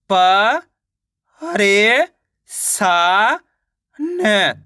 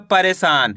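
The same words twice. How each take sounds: First: "प, रे, सा, न" one by one with pauses; teacher's broken-up "प, रे, सा, न"; sounding out syllables. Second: Said in the usual way. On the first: Shown as a demonstration. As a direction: stretch "प", "रे", "सा" upward, then drop on "न". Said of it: "तो मिलके बन जाएगा परेशान". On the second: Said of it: "मिलके बन जाएगा".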